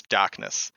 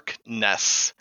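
First: "darkness" softened to "dahkness"; Boston dropped R. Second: "Darkness" slow, with a hard R; R fully pronounced. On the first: Explaining the accent to a friend, "darkness" softened Boston-style without its R. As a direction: say "darkness" with no R, just "dahk-ness". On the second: Explaining the accent to a friend, "Darkness" with every consonant sounded. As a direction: sound out "Darkness" in two parts, R kept. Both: Shown as a demonstration. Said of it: "we soften so many things".

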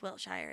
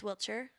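First: Wiltshire said "WILT-shyer"; rejected pronunciation. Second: Wiltshire said "WILT-sher", rising at the end; preferred pronunciation. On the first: Host rules out a pronunciation, Wiltshire as "WILT-shyer". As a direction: rhyme the end of Wiltshire with "fire". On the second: Host corrects herself on the county, Wiltshire as "WILT-sher". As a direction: say Wiltshire with a weak "sher" ending. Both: Shown as a demonstration. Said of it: "I don't think it's Wiltshire".

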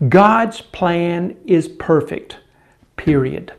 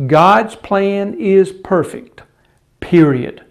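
First: Slow and weighty, set "period" apart; emphasis on period. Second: Slow, emphatic "God's plan is perfect" with a falling, final "period."; emphasis on period. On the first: Preacher stresses the final word to the congregation, slow and firm. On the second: Preacher repeats God's plan, hitting "period" hard and slow. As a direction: land on "period" with weight. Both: Shown as a demonstration. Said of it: "that emphasis there".

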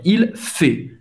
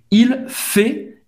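First: "Il fait" repeated slowly, open E in "fait"; open vowel in fait. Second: "il fait" with a wide open E in "fait"; open vowel in fait. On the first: Teacher repeats "Il fait" for students, open vowel. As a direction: model "Il fait" again with an open E. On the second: Teacher models "il fait" for Brazilians, open E in "fait". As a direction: open the mouth on "fait", a clear open E. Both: Shown as a demonstration. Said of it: "é um pouco mais aberto".

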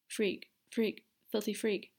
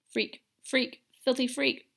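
First: Put-on a frightened child repeating the words under her breath; frantic muttering. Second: Higher, rising frantic chant; a girl spiralling into panic; frantic muttering, higher. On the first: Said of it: "Ariana repeated frantically". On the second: A narrator's reading. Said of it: "Ariana muttered once more".

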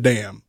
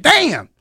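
First: Said in the usual way. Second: Damn squeaked high in surprise; high startled damn. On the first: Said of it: "I wanna say he said". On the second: Retold or imitated. Wrestler imitating a non-cursing man letting slip a damn. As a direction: let damn jump up high. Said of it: "I'm pretty sure he was like".

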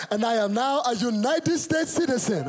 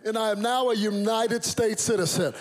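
First: Put-on high, proud Nigerian-accented announcement. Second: Put-on raised, proud American-accented announcement. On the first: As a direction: declare it as an imitated Nigerian father. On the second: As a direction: declare it in crisp General American. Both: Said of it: "No citizenship was changing that accent".

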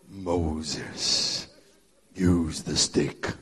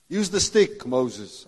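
First: Lower, slow, booming voice of God; deep God voice. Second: Said in the usual way. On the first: Retold or imitated. God telling Moses to use the stick, deep and slow. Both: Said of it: "this deep God voice".

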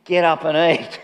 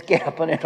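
First: Firmer, commanding get up and eat; more authority. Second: Said in the usual way. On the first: Retold or imitated. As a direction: order him up with authority. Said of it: "a bit more authority in it". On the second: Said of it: "I don't think of the second time it was".

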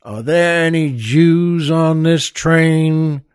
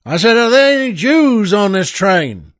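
First: Slow, deliberate question; tough Texan demand. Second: Louder and higher repeat of the question; yelling again. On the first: Texan gunman asking the frightened passengers, slow and deliberate. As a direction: spell it out slowly, word by word. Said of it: "And he says". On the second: Texan gunman demanding an answer again, yelled. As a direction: bellow it at the whole car. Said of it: "the Texan yells again". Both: Acted.

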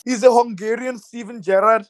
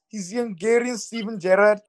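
First: Said in the usual way. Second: Liverpool Scouse accent, lightly done. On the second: Shown as a demonstration. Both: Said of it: "in my best Scouse accent".

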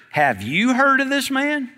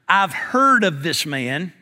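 First: Higher, rising nosy question; gossipy question. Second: Slow, measured report to the Lord; earnest telling. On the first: Churchgoer asks another about a newcomer, gossipy. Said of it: "what we see happen a lot of times in church". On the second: Ananias tells the Lord what he has heard, earnest. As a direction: state it soberly and slowly. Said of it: "Ananias telling the Lord". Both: Acted.

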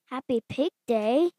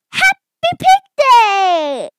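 First: Questioning echo, rising at the end; unsure, with a lift on the last word; puzzled question. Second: High, loud, drawn-out cheer; jubilant announcement. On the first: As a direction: repeat it as a question. Gerald questions the announced holiday. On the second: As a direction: shout it out with a long final word. Piggy announces the holiday. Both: Acted.

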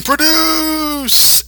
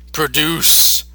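First: High mock yell; hammed-up high yell. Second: Said in the usual way. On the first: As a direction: belt it out like a ranting villain. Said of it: "they start yelling". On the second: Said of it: "he starts saying".

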